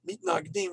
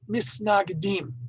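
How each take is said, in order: First: It is said in modern Hebrew pronunciation. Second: It is said in an Eastern European dialect. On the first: "in the modern Hebrew pronunciation" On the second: "In the Eastern European dialect"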